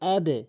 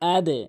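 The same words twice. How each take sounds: The two takes are said the same way.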